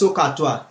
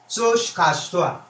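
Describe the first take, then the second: First: No 'sh' sound follows the first syllable. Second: An 'sh' sound follows the first syllable. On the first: It is the usual way people say it. "It's actually Sokatua" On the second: It is a personal version that is easier to say. "I call it Soshkatua so that I can pronounce it"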